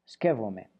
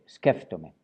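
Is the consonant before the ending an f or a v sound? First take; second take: v; f. First: The consonant before the ending is a v sound. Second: The consonant before the ending is an f sound. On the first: This is how it is said in one island region. "en la región de Creta, el verbo skeptome se pronuncia skevome" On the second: This is how most people in the capital say it. "suavizando la P por F"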